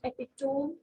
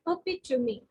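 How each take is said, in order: First: The final E is silent. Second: The final E is sounded. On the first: The speaker calls it wrong. "It's not epitome" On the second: The speaker calls it right. "it's epitome ... E here is giving a sound"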